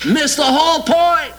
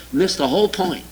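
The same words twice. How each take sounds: First: A preacher's indignant second blow; emphatic repeat. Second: Said in the usual way. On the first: Real, not acted. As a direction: repeat it with force and a big pitch lift.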